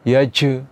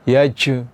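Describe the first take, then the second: The two takes are said the same way.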